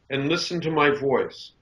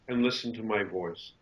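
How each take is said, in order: First: A put-on presenter voice, pitch raised and tight. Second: A relaxed, natural voice at ordinary pitch. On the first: The speaker is performing a role for the camera. The speaker calls it wrong. "Right now I'm presenting" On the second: The speaker is simply being themselves. The speaker calls it right. "Right now I'm just being Arthur"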